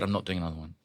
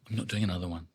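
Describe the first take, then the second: First: Soft, firm repeat; muttered refusal. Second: Muttered refusal. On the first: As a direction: refuse quietly. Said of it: "I said". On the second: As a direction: mutter it to yourself. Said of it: "And I went". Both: Retold or imitated.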